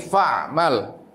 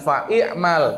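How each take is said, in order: First: No vowel is sounded before 'mal'. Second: An extra 'i' vowel is sounded before 'mal'. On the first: The speaker calls it right. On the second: The speaker calls it wrong. "Bacanya jangan"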